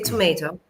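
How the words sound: It is said with an American pronunciation. "American people would say tomato"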